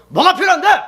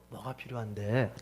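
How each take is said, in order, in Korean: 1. 화가 나고 짜증 난 말투로 말하고 있어요. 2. 차분하고 부드러운 말투로 말하고 있어요.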